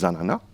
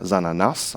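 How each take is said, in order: First: The word ends on a vowel, no consonant. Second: The final consonant is pronounced at the end. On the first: The speaker calls it right. "on dit zanana" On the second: The speaker calls it wrong. "on ne va pas dire zananas en créole"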